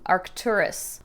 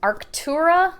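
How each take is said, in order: First: The name ends with a final s sound. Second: The name ends without a final s sound. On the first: The speaker calls it right. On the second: The speaker calls it wrong.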